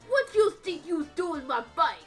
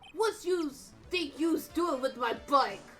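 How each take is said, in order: First: It is said in a Brooklyn New York accent. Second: It is said without a New York accent.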